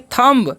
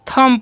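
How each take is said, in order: First: The final b sound is pronounced. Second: The final b sound is silent. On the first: The speaker calls it wrong. "थंब नहीं पढ़ना है आपको" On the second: The speaker calls it right. "यहाँ पर जो है बी silent है"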